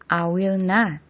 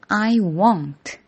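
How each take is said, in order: First: Will and not are both said in full. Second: Will and not merge into one short word.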